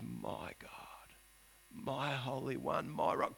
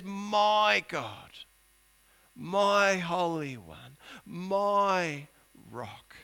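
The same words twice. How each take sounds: First: Whispered, lower, intimate; hushed prayer. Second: Slow, drawn-out devotion fading to a hush; reverent prayer. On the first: Preacher voicing Habakkuk's hushed prayer, whispered and lower. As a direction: breathe the names of God. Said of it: "he refers to God as". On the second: Preacher voicing Habakkuk's reverent prayer, slow and fading. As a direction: linger on each name of God. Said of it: "he says". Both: Acted.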